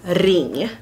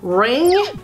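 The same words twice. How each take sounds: First: It is said with a Swedish pronunciation. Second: It is said with an English pronunciation. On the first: "then I will say them in Swedish" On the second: "I will start pronouncing them in English"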